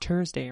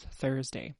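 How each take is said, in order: First: The word starts with a plain t sound. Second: The word starts with a th sound. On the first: The speaker calls it wrong. "it's not Thursday" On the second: The speaker calls it right. "It's Thursday"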